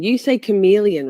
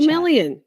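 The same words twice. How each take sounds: First: "chameleon" said as "kuh-MEE-lee-un", with a long ee; the chat's way, "chameleon" with a long "ee"; chat's pronunciation. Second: "Chameleon" said with the stress on "mel" as "kuh-MEL-ee-un"; "Chameleon" pronounced "kuh-MEL-ee-un", raised up high; her own pronunciation. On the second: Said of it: "I say chameleon". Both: Shown as a demonstration.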